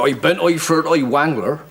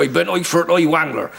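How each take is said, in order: First: A hint of a rustic Somerset accent; lightly voiced West Country yokel. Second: Rustic Somerset accent, lightly voiced. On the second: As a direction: repeat it as a West Country yokel. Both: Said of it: "when I was in Somerset".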